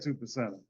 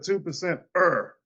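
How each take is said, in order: First: The ending runs smoothly into the word. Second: The ending is set apart as its own part. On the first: The speaker calls it wrong. "I don't say two percenter" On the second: The speaker calls it right. "I said two percent er. You see the er right here?"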